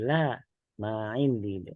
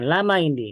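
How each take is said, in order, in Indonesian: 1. Ada jeda singkat setelah kata pertama. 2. Dua kata pertama menyatu tanpa jeda. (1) "tapi la ma indi" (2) "Bukan lama indi"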